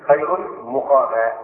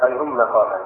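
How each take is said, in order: First: "مقاما" said muqama, with u after the mim; damma on the mim. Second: "مقاما" said maqama, with a after the mim; fatha on the mim. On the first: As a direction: read "مقاما" slowly with a short u on its first syllable. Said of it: "قرأ ابن كثير". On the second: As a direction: read "مقاما" with a short a on its first syllable. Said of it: "والمقفول قرأوها بالفتح". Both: Shown as a demonstration.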